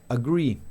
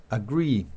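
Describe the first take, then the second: Both takes have the same delivery.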